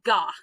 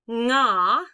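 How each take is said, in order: First: It begins with a hard g sound. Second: It begins with a nasal ng sound. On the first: The speaker calls it wrong. "Don't make it ga" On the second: The speaker calls it right. "It's more like the ng sound in like sing"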